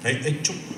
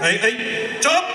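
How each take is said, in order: First: It is said softly and timidly. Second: It is said loudly and forcefully. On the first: The speaker calls it wrong. "না এরকম বললে হবে না" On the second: The speaker calls it right. "জোরে বলতে হবে"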